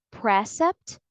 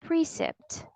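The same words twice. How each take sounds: First: Precept with "preh" as first syllable; wrong short E. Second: Precept said PREE-sept; long E. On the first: Teacher asks which reading is right, short E version. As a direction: say precept as PRESS-ept, short E. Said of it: "So we don't say". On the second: Teacher offers the other reading, long E version. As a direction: give precept a long "ee" in the first syllable. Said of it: "the vowel sound is not". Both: Shown as a demonstration.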